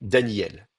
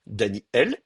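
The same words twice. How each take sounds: First: "Daniel" joined up as Da-nyel; quick glide. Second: "Daniel" as Dani-El, air blocked then opened; glottal stop. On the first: Teacher shows the second case, quick gliding "Daniel". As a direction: say "Daniel" carelessly, i sliding into el without a stop. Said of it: "je parle vite". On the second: Teacher shows the first case, glottal stop in "Daniel". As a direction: catch the breath before el in "Daniel". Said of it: "je bloque le passage de l'air et j'ouvre". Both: Shown as a demonstration.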